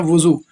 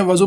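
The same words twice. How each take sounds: First: वज़ू said wu-zoo, u in the first syllable; correct pronunciation. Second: वज़ू said va-zoo, short a in the first syllable; casual wrong pronunciation. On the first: Teacher gives the correct way of saying वज़ू, wuzoo. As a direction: give वज़ू with pesh on vav, wuzoo. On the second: Teacher shows the everyday way of saying वज़ू, vazoo. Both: Shown as a demonstration. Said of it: "लेकिन सही क्या है?".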